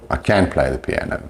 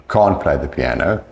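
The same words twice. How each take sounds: First: "can" for can't, stressed short a, t dropped; stressed negative. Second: "Can't" with weight and a long ah, t barely heard; stressed can't. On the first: Teacher showing the negative, stressed "can" with silent t. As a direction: lean on "can" with a full American vowel. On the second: Teacher showing the negative, stressed "Can't". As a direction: lean on "Can't", broad British vowel. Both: Shown as a demonstration. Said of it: "the can't is stressed".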